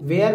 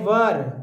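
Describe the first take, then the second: First: The vowel sounds like 'air'. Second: The vowel sounds like 'er'. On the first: The speaker calls it wrong. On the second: The speaker calls it right.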